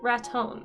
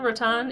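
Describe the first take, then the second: First: The second syllable sounds like the word tone. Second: The second syllable sounds like the end of baton. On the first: The speaker calls it right. "it's rat tone, Ratone. That's how they say it" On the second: The speaker calls it wrong. "spelled like Raton, like baton"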